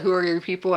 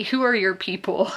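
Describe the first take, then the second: First: Said in the usual way. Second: Lightly imitated Charleston accent. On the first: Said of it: "I've never heard it explicitly asked". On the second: Imitating Southern small talk, light Charleston accent. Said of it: "Charleston accents".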